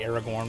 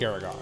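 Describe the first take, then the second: First: The R before the final syllable's N is pronounced. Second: The R before the final syllable's N is dropped. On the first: "with the R in there" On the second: "he really does drop the R off. It's more like Aragon"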